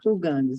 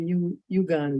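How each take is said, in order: First: The word begins with an 'ooh' sound. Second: The word begins with a 'you' sound. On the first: The speaker calls it right. "they say Uganda" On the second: The speaker calls it wrong. "Americans always say you Uganda"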